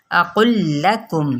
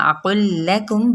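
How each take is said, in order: First: اقل لکم said with a thick قاف, slowly; wrong version. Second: اقل لکم with a thin, light لام; correct version. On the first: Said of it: "اقل لکم نہیں پڑھنا". (غلط، موٹا قاف) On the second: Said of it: "اقل لکم باریک پڑھنا ہے". (باریک، درست ادائیگی) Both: Shown as a demonstration.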